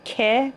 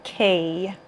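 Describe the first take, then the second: First: The word ends in a short plain e vowel. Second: The word ends in a gliding ey vowel. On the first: The speaker calls it right. "به جای که" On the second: The speaker calls it wrong. "میگن کی"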